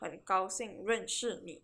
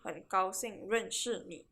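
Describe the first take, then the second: First: It is said with a clear 'sh' sound. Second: The same.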